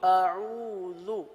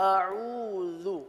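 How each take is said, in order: Both takes have the same delivery.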